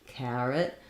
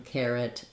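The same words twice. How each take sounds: First: The first vowel is an open 'ah' sound. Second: The first vowel is an 'air' sound. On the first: This is how some regional speakers say it. "they'll say it more like an ah, ah sound with the ah" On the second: This is the general pronunciation. "generally in American English, you want to go with air"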